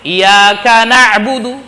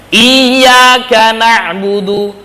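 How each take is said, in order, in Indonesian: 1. Bunyi y dalam iyyaka itu tunggal, dibaca pendek. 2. Bunyi y dalam iyyaka itu dobel, dibaca panjang.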